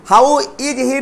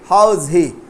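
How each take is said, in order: First: The word 'is' is said as a full syllable. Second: The word 'is' is contracted into 'how's'. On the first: The speaker calls it wrong. "हाउ इज ही नहीं" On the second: The speaker calls it right. "हाउ इज आएगा तो उसको हाउस बोलेंगे"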